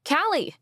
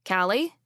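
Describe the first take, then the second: First: Sharp high call, much louder; shouting a name. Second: Said in the usual way. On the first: Acted. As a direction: call out to stop her. Calling after her loudly.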